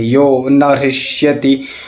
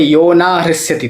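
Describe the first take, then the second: First: The middle word has a short vowel. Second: The middle word has a long vowel. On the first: The speaker calls it right. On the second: The speaker calls it wrong.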